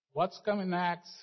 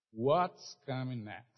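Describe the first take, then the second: First: What's coming next lifted high, coming stressed; preacher repeats the question to the church, raised and pressing; emphatic repeat. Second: Said in the usual way. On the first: Shown as a demonstration.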